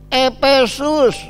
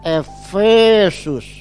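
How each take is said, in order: First: The middle consonant is a p sound. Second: The middle consonant is an f sound. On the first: This is the Sundanese pronunciation. "orang Sunda bilang Epesus" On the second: This is the standard Indonesian pronunciation. "Kalau Indonesia bilang Efesus"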